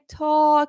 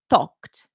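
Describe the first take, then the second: First: The word ends without a final t sound. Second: The word ends with a clear final t sound. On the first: The speaker calls it wrong. "it will sound like a grammar mistake when in the end of the day is actually a pronunciation mistake" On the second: The speaker calls it right. "pronounce your E Ds"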